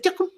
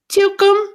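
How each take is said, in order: First: The name is said very fast. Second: The name is said more slowly.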